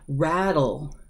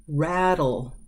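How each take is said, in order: The two takes are said the same way.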